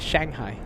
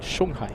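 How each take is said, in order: First: It is pronounced the American way. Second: It is pronounced the Chinese way. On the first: "Americans say Shanghai" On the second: "Chinese say Shanghai"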